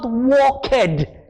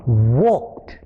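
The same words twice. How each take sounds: First: The ending is said as an extra syllable. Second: The ending is a t sound, one syllable. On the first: The speaker calls it wrong. "the word is not walked" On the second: The speaker calls it right. "it's almost as if there is a t in the word"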